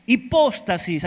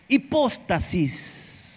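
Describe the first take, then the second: First: Hipóstasis with the stress on the O, said at normal pace. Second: Hipóstasis said very slowly, syllable by syllable, O stressed. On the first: Preacher teaches the Greek word: Hipóstasis, stress on the O. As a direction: say Hipóstasis, leaning on the O. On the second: Preacher repeats the word for the congregation: slow Hipóstasis, O stressed. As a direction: spell out Hipóstasis slowly, leaning on the O. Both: Shown as a demonstration. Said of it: "acento en la O".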